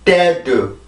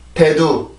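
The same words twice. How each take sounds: First: It is said strongly, with a forceful stressed syllable. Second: It is said relaxed and flat, without stress. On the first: "영어입니다" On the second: "한국어를 먼저 발음해 볼게요"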